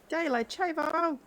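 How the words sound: It sounds sarcastic, in a silly voice.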